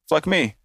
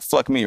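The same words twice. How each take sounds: First: There is a pause between the two words. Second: The two words run together without a pause.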